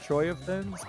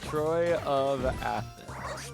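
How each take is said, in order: First: The vowel sound before 'thens' is dropped. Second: The vowel sound before 'thens' is kept. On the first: "I kind of do like the flowiness of Troy of Thins" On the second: "there is an A there"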